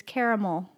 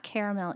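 First: "caramel" as CARE-uh-mull; dictionary pronunciation. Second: "caramel" as CARE-uh-MELL; rejected pronunciation. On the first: Wife citing the dictionary, "caramel" as CARE-uh-mull. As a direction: weaken the last syllable of "caramel" to mull. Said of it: "It's caramel". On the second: Wife citing the dictionary, rejected "caramel" as CARE-uh-MELL. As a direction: end "caramel" with a full MELL. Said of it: "it's not caramel either". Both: Shown as a demonstration.

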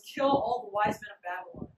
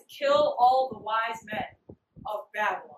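First: Said in the usual way. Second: Slow, weighty retold royal order; emphatic decree. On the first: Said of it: "he literally goes". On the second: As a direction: spell out the order slowly, word by word. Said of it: "He dead says".

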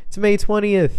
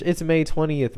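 First: "May twentieth" called out high and loud; loud alarm. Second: Said in the usual way. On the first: Shown as a demonstration. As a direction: shout it like a wake-up call.

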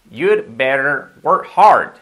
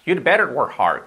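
First: Very slow, loud teacher's demonstration; deliberate, stretched-out classroom model; slow model sentence. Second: Said in the usual way. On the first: Shown as a demonstration. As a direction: draw each word out for learners to copy. Teacher models the phrase slowly.

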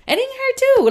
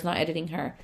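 First: "editing her too" jumps much higher and louder, teasing; joking correction. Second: "not editing her" dropped to a soft, low throwaway; quiet aside. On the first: Admitting she also edits the client, high loud joke. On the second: Correcting herself about the client photos, soft aside. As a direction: mutter "not editing her" under your breath. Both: Shown as a demonstration.

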